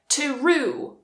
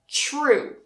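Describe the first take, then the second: First: The t and r are separated by a vowel. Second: The t and r blend into a ch-like sound. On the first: The speaker calls it wrong. "try to pronounce them like separate letters" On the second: The speaker calls it right. "combine them and say it more like a ch"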